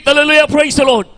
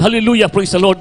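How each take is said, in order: First: Higher, louder, ringing cry of Hallelujah; preacher showing the shout of praise. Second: Said in the usual way. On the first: Shown as a demonstration. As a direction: call it out like a shout to the Lord. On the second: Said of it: "ang pagsinggit ng".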